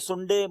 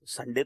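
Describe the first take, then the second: First: The first vowel is a rounded 'oo' sound. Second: The first vowel is an open 'a' sound. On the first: This is how people in the north say it. "वो north में सुंडे" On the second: This is the familiar pronunciation. "संडे तो सुना था"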